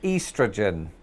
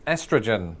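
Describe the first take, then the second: First: It is said with a British accent. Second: It is said with an American accent.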